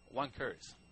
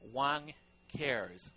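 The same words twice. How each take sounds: First: It is said fast in a British accent. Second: It is said plainly and slowly, in a normal accent.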